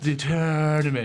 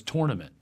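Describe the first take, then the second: First: "tournament" as TURN-ament, drawn out; rest-of-country pronunciation. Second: "tournament" starting like tore; Philly pronunciation. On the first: Mocking how the rest of the country says it, "tournament" as TURN-ament. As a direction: stretch "tournament" with an "ur" vowel, mocking it. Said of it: "they say tournament the whole rest". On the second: Showing the word they make fun of, "tournament" as TORE-nament. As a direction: say "tournament" with an "or" vowel. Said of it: "the one for me that they make fun". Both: Shown as a demonstration.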